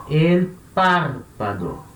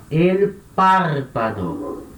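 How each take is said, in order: No difference in how they are said.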